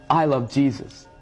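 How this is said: It sounds sincere and loving.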